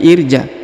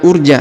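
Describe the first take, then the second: First: The word begins with an i vowel. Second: The word begins with an u vowel. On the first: The speaker calls it right. "tapi irja" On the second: The speaker calls it wrong. "bukan urja"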